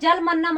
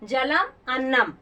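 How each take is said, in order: First: The two words are run together without a break. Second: The two words are said with a break between. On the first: The speaker calls it wrong. "इसको जलमन्नम आपको नहीं पढ़ना है" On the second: The speaker calls it right.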